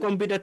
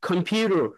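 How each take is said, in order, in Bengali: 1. দ্বিতীয় সিলেবলে কোনো বিশেষ স্ট্রেস নেই। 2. স্ট্রেস পড়ে দ্বিতীয় সিলেবলে। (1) "যখন আমরা বাংলা বলি" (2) "পিউর উপরে স্ট্রেজ হবে"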